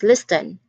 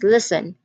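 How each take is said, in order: First: The T sound is pronounced in the middle. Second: The T sound is silent in the middle. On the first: The speaker calls it wrong. "It is not pronounced as listen" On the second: The speaker calls it right. "It is pronounced as listen, which means that letter T is the silent letter"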